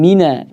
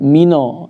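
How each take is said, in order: First: The final vowel is a thin 'a'. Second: The final vowel is a thick 'o'. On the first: The speaker calls it right. "Kemudian mina" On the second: The speaker calls it wrong. "tidak mino ya"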